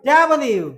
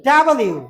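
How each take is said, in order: Both takes have the same delivery.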